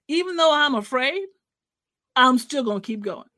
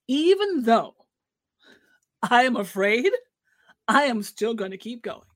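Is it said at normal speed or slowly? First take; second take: normal speed; slowly. First: It is said at normal speed. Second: It is said slowly and deliberately.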